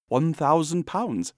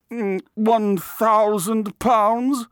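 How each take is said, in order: First: Measured, slightly slow, higher-pitched answer; matter-of-fact price. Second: Very high, loud, drawn-out repeat of the price; pondering artist. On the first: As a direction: state the price deliberately. Narrator names his price. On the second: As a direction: mull it aloud slowly in an affected high voice. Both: A narrator's reading.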